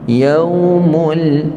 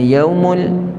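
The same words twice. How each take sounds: First: The sound is held for a moment. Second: The sound is cut short without lingering. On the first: The speaker calls it right. "beri tempoh dulu" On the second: The speaker calls it wrong. "Jangan yaumul, yaumul, itu tak sempurna"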